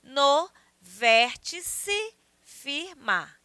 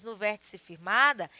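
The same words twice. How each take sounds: First: "No vértice firmar" very slowly, a gap between syllables; counted syllable by syllable. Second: Said in the usual way. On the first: Shown as a demonstration. Teacher counting the verse, "No vértice firmar" in slow separate syllables. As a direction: spell out "No vértice firmar" beat by beat, stopping on "mar". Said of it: "Vamos contar". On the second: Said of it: "esse verso aí".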